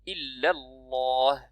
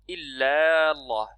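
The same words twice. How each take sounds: First: The vowels are kept short and linked. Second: A vowel is drawn out long. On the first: The speaker calls it right. "C'est illallah" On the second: The speaker calls it wrong. "il ne faut pas essayer d'allonger ... Ça, c'est faux"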